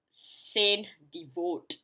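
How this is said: The name is said with English-style sounds. The speaker calls it wrong. "without the French word, I will actually pronounce it"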